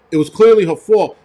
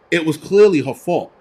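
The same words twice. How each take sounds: First: Louder, with stress on clearly; insisting it was clearly her fault, louder; emphatic. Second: Said in the usual way. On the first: Real, not acted. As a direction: hammer the word clearly, louder.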